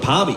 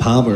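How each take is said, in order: First: The word ends with an 'ee' sound. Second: The word ends with an 'er' sound. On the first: This is how South Australians say it. "South Australians usually say say it with an I" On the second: This is how people from New South Wales say it. "So it's Palmer for us"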